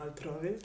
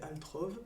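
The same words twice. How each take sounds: First: The name is said with an Italian accent. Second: The name is said with a French accent. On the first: "Je préfère" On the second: "avec l'accent français"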